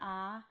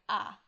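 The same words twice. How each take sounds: First: The pitch rises from low to high. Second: The sound is short and sharply clipped. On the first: "the second is a rising tone" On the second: "a sort of staccato"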